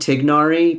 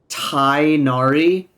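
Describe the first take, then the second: First: The 'igh' is said with a hard g sound. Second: The 'igh' sounds like 'eye' with no g. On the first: This keeps closer to the original Arabic sounds. The speaker calls it right. "I call him Tignari because that sounds a lot more authentic" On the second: This is the form localized for Western English speakers. The speaker calls it wrong. "they localize it to Tainari"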